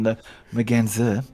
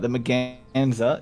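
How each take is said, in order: First: The word is said without an Australian accent. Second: The word is said with an Australian accent. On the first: "rather than the Merganser" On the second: "my Australian accent"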